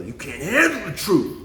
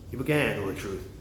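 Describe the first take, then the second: First: Drawn-out, emphatic film-line imitation; movie quote impression. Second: Said in the usual way. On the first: Quoting a movie about truth, slow hammed-up outburst. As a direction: act out the famous line, slow, with HANDLE swooping up. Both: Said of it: "you ever watch that movie".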